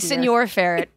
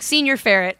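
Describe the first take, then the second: First: The first word is said like Spanish señor. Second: The first word is said like English senior. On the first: The speaker calls it right. "It's supposed to be senior ferret" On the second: The speaker calls it wrong. "but he's like, senior ferret"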